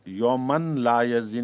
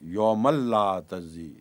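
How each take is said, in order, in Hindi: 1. n को l से पहले साफ़ बोला जाता है। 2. n पूरी तरह मिलकर डबल l बन जाता है। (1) "नहीं पढ़ना" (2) "तमाम अहले इल्म इसी तरह पढ़ते हैं"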